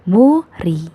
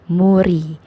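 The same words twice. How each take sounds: First: The middle consonant is an R sound. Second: The same.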